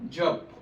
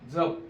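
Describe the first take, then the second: First: The first consonant is palatal, with a y-glide. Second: The first consonant is dental-palatal, without y-glide. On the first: It means chanting a prayer. "य युक्त म्हणजेच काय? तर तालव्य" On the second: It means to take care of something. "दंत तालव्य अयुक्त जपचा अर्थ काय?"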